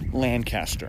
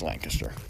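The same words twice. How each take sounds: First: It is said with the outsider's pronunciation. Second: It is said with the local, British-like pronunciation. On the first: The speaker is not from the area. The speaker calls it wrong. "people not from this area will call where the Bird in Hand is Lancaster" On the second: The speaker is from the area. The speaker calls it right. "but it's Lancaster"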